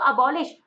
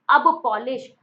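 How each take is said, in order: First: Said in the usual way. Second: Loud "अब पॉलिश", two words with a P; split sound-alike. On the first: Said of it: "अबॉलिश में sound आता है". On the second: Shown as a demonstration. Teacher linking the word to shoe polish, "अब पॉलिश" split. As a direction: hit "अब", then say "पॉलिश". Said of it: "sound आता है अब पॉलिश".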